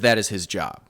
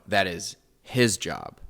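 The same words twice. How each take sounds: First: The word 'his' carries no special stress. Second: The word 'his' carries strong stress. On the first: Sending letters abroad is simply his task. "us the scholars will read it as" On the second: It is his task and not the others' task. "that is his job, not yours"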